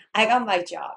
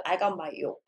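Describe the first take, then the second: First: "job" with a firm j, louder; corrected job. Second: "job" coming out as "yo"; mispronounced job. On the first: Student fixing the error, "job" said loudly with a proper j. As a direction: land a clear j on "job", loudly. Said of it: "이렇게 고치거나". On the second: Student repeating the same error, "job" said like "yob". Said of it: "또 이러겠지". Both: Shown as a demonstration.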